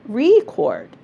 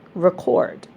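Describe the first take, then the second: First: The stress is on the first syllable. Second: The stress is on the second syllable. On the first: It is used as a noun. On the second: It is used as a verb. "The verb"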